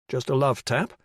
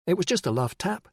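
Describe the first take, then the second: First: "Just a love tap?" repeated in a disbelieving rising question; incredulous echo. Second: "It was just a love tap" said lightly, casually rising; dry understatement. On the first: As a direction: throw her words back in disbelief. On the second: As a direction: shrug off a hard blow. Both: Acted.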